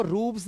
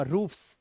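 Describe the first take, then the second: First: रूफ्स said as "roobz" with a buzzed z; wrong voiced ending. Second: रूफ्स ending in a voiceless "fs"; hissed S ending. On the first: Teacher showing how not to say it, buzzed z ending. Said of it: "तो वो रूफ्स नहीं हो जाएगा". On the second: Teacher giving the correct reading, hissed s ending. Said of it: "अब सा होगा". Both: Shown as a demonstration.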